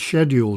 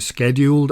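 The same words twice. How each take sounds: First: It is said the British way. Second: It is said the North American way.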